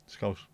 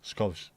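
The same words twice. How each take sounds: The two takes are said the same way.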